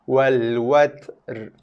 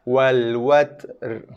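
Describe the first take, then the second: The two takes are said the same way.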